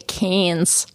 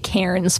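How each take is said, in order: First: The R is dropped, Australian style. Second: The R in the name is pronounced.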